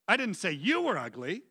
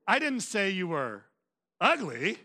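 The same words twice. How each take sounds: First: The word you carries the main stress. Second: The word ugly carries the main stress. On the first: Someone else is the ugly one. "I said your mama was ugly" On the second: The person has other flaws instead. "You're just fat and stupid"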